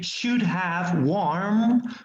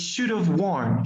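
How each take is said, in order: First: Have is pronounced fully with its h sound. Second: Have is reduced and linked, without the h. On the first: The speaker calls it wrong. "we do not usually say should have worn" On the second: The speaker calls it right. "We said we should have worn"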